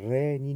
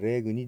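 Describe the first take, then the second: First: No hard g; gn sounds like ny. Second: A hard g sound is heard before the n. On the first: The speaker calls it right. "GN というのが出てくるとニャニニュニャニョの発音になりますね" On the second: The speaker calls it wrong. "レグニではなくて"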